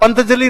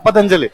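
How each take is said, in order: First: The nasal 'n' comes before the 't' sound. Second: The nasal 'n' comes after the 't' sound. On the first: This is how people from one region say it. The speaker calls it wrong. "अरे पंतजलि नहीं है" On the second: This is the standard form of the name. The speaker calls it right. "ये क्या है पतंजलि"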